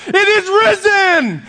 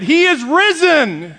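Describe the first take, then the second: First: Very high, slow, loud shout; even louder voice. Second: High, drawn-out loud greeting. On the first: Greeter turning to the next guy, very loud shout. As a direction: imitate a man hollering his Easter greeting at full volume. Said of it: "in an even a louder voice". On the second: Man greeting the pastor at Easter service, loud voice. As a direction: imitate a man's booming Easter greeting. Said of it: "in a loud voice said". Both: Retold or imitated.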